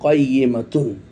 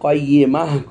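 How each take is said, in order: First: The word ends with a full -tun ending. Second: The word ends softly on an h sound. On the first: This is the spelled-out full form. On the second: This is the form used when pausing at the verse end.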